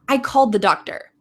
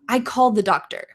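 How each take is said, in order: No difference in how they are said.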